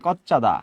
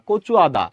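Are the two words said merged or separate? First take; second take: merged; separate. First: The words run together quickly into one word. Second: Two separate words with a break between them.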